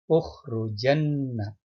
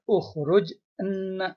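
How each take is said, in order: First: The j takes an a vowel, running into nna. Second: The verb ends in a bare j, then enna. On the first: The speaker calls it right. "maka jimnya itu difathahkan menjadi ukhrujanna" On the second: The speaker calls it wrong. "tidak bisa dibaca ukhruj enna gitu kan nggak bisa"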